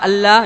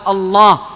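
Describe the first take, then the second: First: The L sound is thin and light. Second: The L sound is thick and heavy. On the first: The speaker calls it wrong. "لا يقال الله" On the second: The speaker calls it right. "يقال الله"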